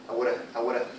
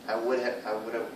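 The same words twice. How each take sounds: Both takes have the same delivery.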